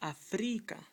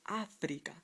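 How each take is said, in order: First: The stress is on the second syllable. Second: The stress is on the first syllable. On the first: The speaker calls it wrong. "according to this rule, how would it sound? ... That does not sound right" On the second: The speaker calls it right. "The word is Africa. ... you need an accent on the A"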